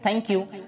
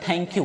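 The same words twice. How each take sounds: First: The t is made touching the teeth. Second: The t is made without touching the teeth. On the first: The speaker calls it right. "जब आप टी बोलेंगे तो दांत आपके सटेंगे" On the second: The speaker calls it wrong. "थैंक you नहीं होता है"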